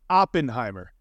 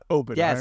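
First: The first syllable is a short 'op'. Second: The first syllable is a long 'ope'. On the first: The speaker calls it right. "It is Oppenheimer, There's an op there" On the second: The speaker calls it wrong. "not Oppenheimer"

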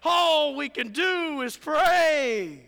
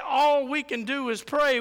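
First: It sounds lively and excited. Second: It sounds flat and resigned. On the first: Prayer is a powerful privilege. The speaker calls it right. "We should say, man" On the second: Prayer is only a last resort. The speaker calls it wrong. "we shouldn't say"

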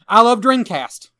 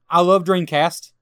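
First: It is said louder, like shouting in capitals. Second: It is said at an ordinary, calm volume. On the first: The speaker calls it right. "That's a little better" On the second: The speaker calls it wrong. "so you didn't say it right"

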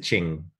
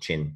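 First: The word ends with a G sound. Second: The word ends with a plain N sound. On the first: The speaker calls it right. "it's spelled Q-I-N-G, so it's a ching. Got a G on" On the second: The speaker calls it wrong. "Not chin"

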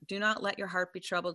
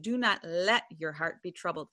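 First: It is read at a normal pace. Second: It is read slowly and deliberately.

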